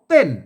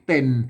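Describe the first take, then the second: First: The word is said with the tho tone. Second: The word is said with the ek tone. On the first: "ใส่ไม่โท" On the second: "ใส่ไม่เอก"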